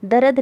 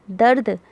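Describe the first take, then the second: First: दर्द said "da-rad", in two syllables; full r with its vowel in दर्द; wrong full-vowel reading. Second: दर्द as one syllable, "dard"; no vowel after r in दर्द; half-sounded r. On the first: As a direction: put a short vowel between r and d in दर्द. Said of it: "दर्द नहीं पढ़ेंगे". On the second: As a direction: run r straight into d in दर्द. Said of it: "उसको आधा पढ़ोगे". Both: Shown as a demonstration.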